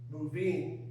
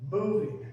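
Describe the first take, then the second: First: The stress is on the second syllable. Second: The stress is on the first syllable. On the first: The speaker calls it wrong. "We wouldn't say moving" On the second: The speaker calls it right. "The stress is on the first syllable"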